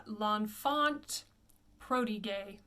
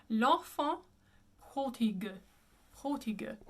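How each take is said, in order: First: Slow L'Enfant Prodigue as "lon-FONT PRO-di-gay"; common mispronunciation. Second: L'Enfant Prodigue with two nasals, back r; L'Enfant Prodigue ending "pro-dee-guh"; French pronunciation. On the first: Teacher quotes what people often say, anglicized. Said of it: "I often hear people say". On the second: Teacher repeats the corrected title, French pronunciation. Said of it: "the correct pronunciation would be". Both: Shown as a demonstration.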